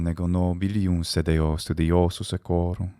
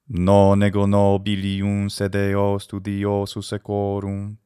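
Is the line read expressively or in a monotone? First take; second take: expressively; monotone. First: The line is read with lively, varied pitch. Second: The line is read on one flat pitch. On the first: "that is what we are going for" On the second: "Stage one is monotone"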